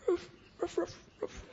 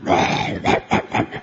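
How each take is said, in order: First: High little puppy yaps, much higher; yapping good dog. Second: Lower, much louder rough breathy barks; bad dog growl. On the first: Retold or imitated. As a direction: yap like an eager small dog. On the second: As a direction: bark like a big mean dog. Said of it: "And the bad dog goes".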